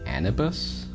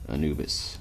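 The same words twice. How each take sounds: First: The i and u vowel sounds are swapped. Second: The u and i vowel sounds are in usual order. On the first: The speaker calls it wrong. "I transpose the I and the U" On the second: The speaker calls it right. "I found out"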